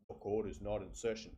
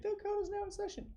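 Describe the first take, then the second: First: The voice is pitched low and deep. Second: The voice is pitched high and squeaky. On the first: The speaker calls it right. "I go down an octave" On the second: The speaker calls it wrong. "going up an octave"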